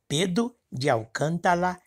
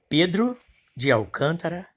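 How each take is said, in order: First: The words are pronounced indistinctly, tongue-tied. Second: The words are pronounced clearly and distinctly.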